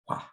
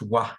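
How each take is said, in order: First: The sound is breathed out without voice. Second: The sound is said with full voice. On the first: The speaker calls it right. "it's more of like a wah" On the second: The speaker calls it wrong. "it isn't necessarily pronounced wah"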